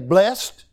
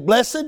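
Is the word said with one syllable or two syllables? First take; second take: one; two. First: It is one syllable ending in a t sound. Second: It is two syllables ending in an -ed sound. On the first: "you can say blessed with a T on the end of it" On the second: "or you can say blessed with the ED on the end of it"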